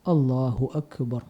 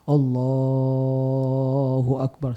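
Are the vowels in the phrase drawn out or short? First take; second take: short; drawn out. First: The vowels are kept short and plain. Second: The vowels are stretched out very long. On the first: The speaker calls it right. "tidak dipanjangkan" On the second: The speaker calls it wrong. "mat mungkin dalam tajwidnya ya atau enam harakat gitu ya"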